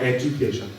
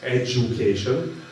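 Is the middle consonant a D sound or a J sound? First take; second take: D sound; J sound. First: The middle consonant is a plain D sound. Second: The middle consonant is a J sound. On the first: This is the way it was said in the old reality. "not education" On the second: This is the way it is said in the new reality. "a reality where it's education"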